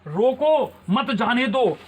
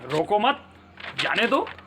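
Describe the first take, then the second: First: There is a pause right after 'roko'. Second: There is a pause right after 'mat'.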